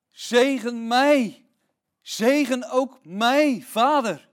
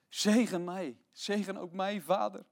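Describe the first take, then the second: First: Loud, slow, higher pleading cry; desperate plea. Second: Said in the usual way. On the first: Acted. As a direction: beg father with all you have. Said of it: "En hij smeekte zijn vader". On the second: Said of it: "zegt hij wanhopig".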